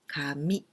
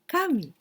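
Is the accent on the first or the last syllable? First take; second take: last; first. First: The accent falls on the last syllable. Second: The accent falls on the first syllable. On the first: It means paper. "The accent in the last word" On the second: It means god. "Intonation is different"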